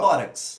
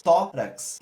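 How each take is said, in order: First: Said in the usual way. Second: "tórax" split as tó, rax, leaning on "tó"; syllable by syllable. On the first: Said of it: "duas sílabas". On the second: Shown as a demonstration. Teacher testing the rule on a word, "tórax" split in syllables. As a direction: break "tórax" in two with a strong first beat. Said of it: "duas sílabas e a sílaba tônica é o tó".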